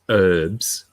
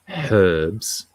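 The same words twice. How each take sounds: First: The word starts without an h sound. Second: The word starts with an h sound. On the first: The speaker calls it wrong. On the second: The speaker calls it right.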